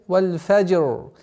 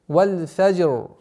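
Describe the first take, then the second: Both takes have the same delivery.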